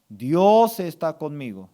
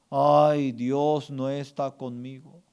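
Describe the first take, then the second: First: Weighty stress on "Dios"; firm affirmation. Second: Drawn-out, complaining "Ay"; mock lament. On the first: Shown as a demonstration. Pastor gives congregation words to accept, firm affirmation. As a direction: declare it as settled truth. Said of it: "Usted tiene que aceptar". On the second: Pastor voices words to eliminate from the heart, mock lament. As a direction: moan it like a defeated believer. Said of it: "Usted tiene que eliminar tres palabras".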